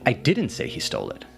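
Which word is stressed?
didn't. The word 'didn't' carries the main stress. The speaker denies saying it at all. "clarifying that you did not say that"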